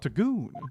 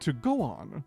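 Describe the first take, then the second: First: It is run together as one word. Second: It is said as two separate words. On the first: It becomes a crude joke. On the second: There is little evidence to work from.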